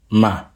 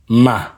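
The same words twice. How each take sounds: First: The syllable is said on a low pitch. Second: The syllable is said on a high pitch. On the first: "Listen to the low tone" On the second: "Listen to the high tone"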